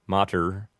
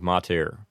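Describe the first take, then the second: First: Mater ending in uh-r; mater, English ending; Americanized mater. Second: Mater ending in a clear eh-r; mater, Latin ending. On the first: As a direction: say mater as MAH-ter. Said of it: "they might say". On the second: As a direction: say mater as MAH-tehr. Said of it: "instead of". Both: Shown as a demonstration.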